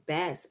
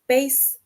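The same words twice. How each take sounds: First: The vowel rhymes with grass. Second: The vowel rhymes with case. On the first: It names a kind of fish. "and rhymes with grass" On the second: It names a large string instrument. "bass rhymes with case"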